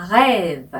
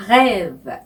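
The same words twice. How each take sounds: First: Rêve with a throaty French R from the back of the throat; rêve said carefully, French R gargled in the throat; French pronunciation. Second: Rêve repeated slowly, French R from the throat; slow rêve ending on a rise; French pronunciation. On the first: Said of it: "발음을". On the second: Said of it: "이렇게 하죠". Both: Shown as a demonstration.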